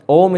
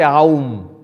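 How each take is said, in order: First: The vowel is a single steady O. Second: The vowel glides from A to U. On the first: The speaker calls it right. "Om is the correct pronunciation" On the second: The speaker calls it wrong. "don't say Aum"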